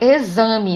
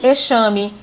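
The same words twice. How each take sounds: First: The x is sounded like z. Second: The x is not sounded like z. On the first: The speaker calls it right. "eu falo exame. Então o X com o som de Z" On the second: The speaker calls it wrong. "eu também não pronuncio exame"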